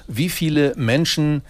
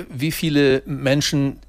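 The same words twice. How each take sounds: The two takes are said the same way.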